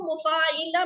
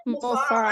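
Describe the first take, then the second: First: मुफाइला with an "i" after the long "faa"; mispronounced vowel. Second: मुफाअला pronounced mu-faa-a-la, never with an "i"; correct vowel in मुफाअला. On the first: Teacher warns students of a slip, मुफाइला with the mistaken "i". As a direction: say मुफाइला as mu-faa-i-la, zer replacing zabar. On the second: Teacher models the word for students, correctly voweled मुफाअला. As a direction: say मुफाअला with a long "faa", then an "a" on the ain. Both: Shown as a demonstration. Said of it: "इसको मुफाइला मत बोलिएगा".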